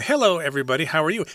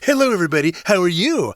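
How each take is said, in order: First: It is said in a normal speaking voice. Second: It is said in a mocking, teasing voice.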